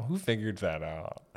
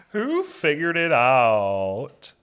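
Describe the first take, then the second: First: Said in the usual way. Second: Louder, drawn out and higher; loud slow repeat. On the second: Shown as a demonstration. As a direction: stretch the question out, louder.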